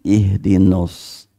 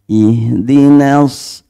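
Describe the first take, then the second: First: The vowel in 'na' is thick and rounded. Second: The vowel in 'na' is thin and open. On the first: The speaker calls it wrong. "jangan ihdinos" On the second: The speaker calls it right. "Na-nya tipis, terbuka"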